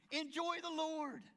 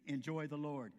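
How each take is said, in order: First: Higher, slow, ringing call to joy; joyful exhortation. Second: Said in the usual way. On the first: Real, not acted. Preacher urging the congregation to enjoy the Lord, higher and slower. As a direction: lift it up high and slow.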